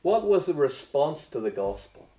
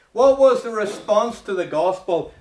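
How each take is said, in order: First: Said in the usual way. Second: High and loud repeat of the question; preaching loud. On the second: Shown as a demonstration. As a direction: hammer the question home loudly. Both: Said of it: "repeated question, second louder".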